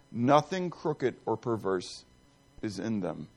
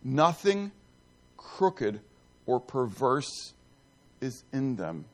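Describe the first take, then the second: First: Said in the usual way. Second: "Nothing" "crooked" "or perverse" each set apart by pauses, slow; slow deliberate repeat. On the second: Shown as a demonstration. Preacher repeating the verse to let it sink in, slow and deliberate. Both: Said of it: "repeats the phrase slowly".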